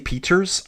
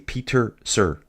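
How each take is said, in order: First: The name ends in a short 'ers' sound. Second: The name ends in a separate 'sir' syllable. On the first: The speaker calls it wrong. "So I don't say Peters" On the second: The speaker calls it right. "I say Peter Sir"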